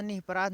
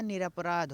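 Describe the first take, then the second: First: निपराध said without the r, as nih-pa-raadh; निपराध, the r after नि dropped; निपराध voiced as the wrong spelling; wrong form. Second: Said in the usual way. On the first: Shown as a demonstration. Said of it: "निपराध नहीं होता है". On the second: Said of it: "निरपराध होता है".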